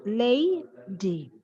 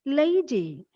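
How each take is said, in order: First: "lady" in two parts, lay, dee, with a pause; split into syllables. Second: Said in the usual way. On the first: Shown as a demonstration. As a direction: hold "lay", then a separate "dee" in "lady". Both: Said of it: "it can be split into two".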